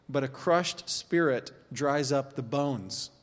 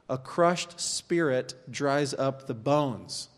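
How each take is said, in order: First: "crushed spirit dries up the bones" read slowly, leaning on "crushed"; slow, weighty stress on "crushed"; slow emphatic reading. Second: "crushed" hit hard, whole line at half speed; slow repeated emphasis. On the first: Pastor to congregation, slowly stressing "crushed". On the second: Repeating the verse to the room, very slow, stressing "crushed". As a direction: drag it out, punching "crushed". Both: Shown as a demonstration. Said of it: "That's a weird connection".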